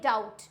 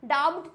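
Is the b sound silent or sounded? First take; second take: silent; sounded. First: The b sound is silent. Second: The b sound is pronounced. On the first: The speaker calls it right. "बी होता है silent" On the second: The speaker calls it wrong. "डाउट तो नहीं होता है"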